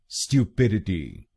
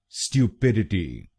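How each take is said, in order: The two takes are said the same way.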